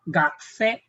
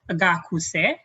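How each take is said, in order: First: The u after gak is silent. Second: The u after gak is clearly voiced. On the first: The speaker calls it right. "a silent U" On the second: The speaker calls it wrong. "we don't pronounce this one as gakuse"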